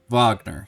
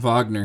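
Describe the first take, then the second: First: The name is said with an English pronunciation. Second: The name is said with a German pronunciation.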